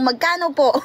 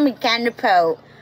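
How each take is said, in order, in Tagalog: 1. Payak ang pagbigkas, walang banyagang aksento. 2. May mabigat na banyagang aksento ang pagbigkas. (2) "Huwag mo masyadong islangan"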